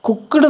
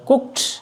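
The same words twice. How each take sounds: First: The ending is not said as a t. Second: The ending is said as a t sound. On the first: The speaker calls it wrong. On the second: The speaker calls it right.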